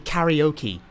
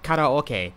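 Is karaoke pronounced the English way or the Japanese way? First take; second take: English; Japanese. First: The word is given an English-style pronunciation. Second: The word is given a Japanese-style pronunciation. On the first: Listeners would recognize the word. The speaker calls it wrong. "If I say karaoke, they will get it, but that's totally wrong" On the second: Listeners would not recognize the word. The speaker calls it right. "if I tell someone karaoke, they will not get it"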